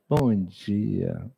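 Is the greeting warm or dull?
warm. It is said warmly and brightly.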